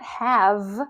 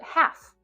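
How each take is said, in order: First: The word ends with a voiced V sound. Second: The word ends with a voiceless F sound. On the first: The speaker calls it wrong. "It's not have with this V sound that we've probably all been taught" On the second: The speaker calls it right. "but half"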